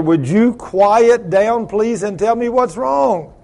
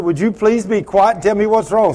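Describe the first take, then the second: First: Slow, drawn-out, higher-pitched insistence; retold exasperated plea. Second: Mildly urgent request at an even pace; retold plea. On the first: Father finally insists his crying daughter explain, slow and exasperated. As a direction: stretch out the plea to break through crying. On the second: Father first asks his crying daughter what's wrong, mildly pleading. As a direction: ask her to settle, a touch higher.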